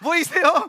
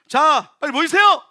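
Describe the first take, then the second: First: It is said softly, without force. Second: It is shouted loudly with force.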